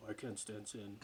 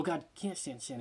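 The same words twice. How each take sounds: First: Mock aloof God. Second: Said in the usual way.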